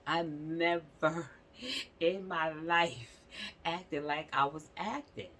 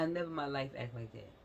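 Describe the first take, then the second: First: "I never in my life" drawn out slowly, word by word; emphatic repeat. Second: Said in the usual way. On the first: Real, not acted. Admitting her childhood behavior to viewers, slow and emphatic. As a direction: stretch NEVER and LIFE for emphasis, a laugh breaking in.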